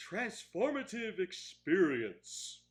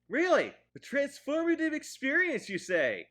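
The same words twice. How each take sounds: First: Slow, deliberate enunciation; drawn-out quote. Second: High, loud sarcastic questioning; mock incredulity. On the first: Retold or imitated. Reviewer quoting the film's unsubtle line, slow and deliberate. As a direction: spell out the grand phrase slowly. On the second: Reviewer scoffing at the film's line, mock incredulous. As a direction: throw the phrase back in feigned astonishment. Mocks the phrase just quoted.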